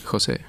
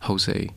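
First: The name is said with a Spanish pronunciation. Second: The name is said with an English pronunciation. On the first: "my parents wouldn't pronounce it" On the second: "in English I actually like"

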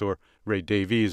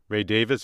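First: The name is said the American way. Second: The name is said in a non-American way.

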